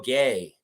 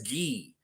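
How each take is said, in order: First: The name ends with an 'ay' vowel. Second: The name ends with an 'ee' vowel. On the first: The speaker calls it wrong. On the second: The speaker calls it right. "he pronounces his last name as Gee"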